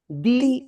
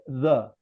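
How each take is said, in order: First: It is said with a long 'ee' vowel. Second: It is said with a short 'uh' vowel. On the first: "When the when you got the definite article the and the word begins by vowel sound, you pronounce the" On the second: "If the word begins by consonant sound"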